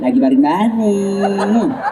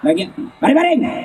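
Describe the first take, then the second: First: It is said in a soft, drawn-out, lilting voice. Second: It is said in a firm, clipped, flat voice.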